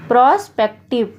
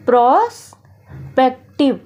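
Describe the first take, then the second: First: Said in the usual way. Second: prospective stretched out slowly, syllable by syllable; slow, drawn out. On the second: Shown as a demonstration. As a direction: say prospective slowly and clearly for the class. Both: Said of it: "prospective को हम easy तरीके से".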